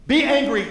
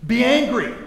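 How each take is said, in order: First: Loud and high, stressing "Be angry"; repeated command. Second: Loud, high, forceful; quoted command. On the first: Shown as a demonstration. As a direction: hammer home the command. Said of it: "God commands you". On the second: Retold or imitated. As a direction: proclaim it like a command. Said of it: "Paul says this".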